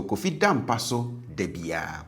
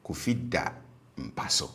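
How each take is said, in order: First: DA high in "Kofi da mpa so"; habitual high tone. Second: DA low after a raised "Kofi"; stative low tone. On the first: Teacher contrasts the every day habit, DA high-toned. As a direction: lift the first DA up high. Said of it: "habitual form tends to be high". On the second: Teacher contrasts it as happening while we speak, DA low. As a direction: drop down onto DA and stay low. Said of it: "stative form tends to be low". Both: Shown as a demonstration.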